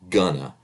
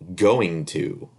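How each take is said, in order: First: The words blend into one reduced word. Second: Both words are said fully and separately. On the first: The speaker calls it right. "we say" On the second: The speaker calls it wrong. "We don't say that"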